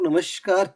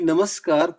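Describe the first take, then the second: First: The middle consonant is an 'sh' sound. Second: The middle consonant is a plain 's' sound. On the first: The speaker calls it wrong. "नमस्कार को नमस्कार क्यों बना दिया" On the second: The speaker calls it right. "उसको वहां से श हटाइए और स लगाइए"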